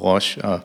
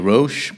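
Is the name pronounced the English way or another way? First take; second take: another way; English. First: The name is pronounced a non-English way. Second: The name is pronounced the English way. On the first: "og Roche" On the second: "der siger Roche på engelsk"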